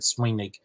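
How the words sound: The word ends with a hard k sound. "that's Munster pronunciation to have that hard K sound"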